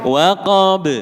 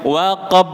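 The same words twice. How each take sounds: First: The final b is released with a quick bounce. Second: The final b stops without any bounce. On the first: "setelah sampai tempat keluarnya, panjenengan cepat tarik" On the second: "Ini tanpa qalqalah"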